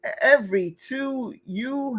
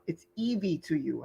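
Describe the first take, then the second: First: Every said with an R, as ev-ree; misread name. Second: Evie said as ee-vee with no R; corrected name. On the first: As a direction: read it wrongly as Every, with a clear R. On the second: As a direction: fix it to Evie, no R at all. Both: Real, not acted. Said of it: "No, there's no R".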